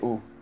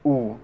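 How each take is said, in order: First: The vowel is short with relaxed lips. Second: The vowel is long with lips pushed forward. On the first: "U ini biasa aja U, U tidak nyentuh ya" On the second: "U normal itu bibir kita nyentuh"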